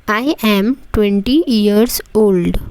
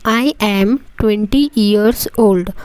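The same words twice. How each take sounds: The two takes are said the same way.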